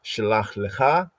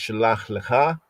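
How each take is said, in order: No difference in how they are said.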